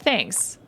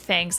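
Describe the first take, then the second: First: The word is said in a sincere tone. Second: The word is said in a sarcastic tone. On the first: The thanks is truly meant. The speaker calls it right. "but like a genuine, like, thanks" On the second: The thanks is not really meant. The speaker calls it wrong. "not like, hey, thanks, like sarcastic"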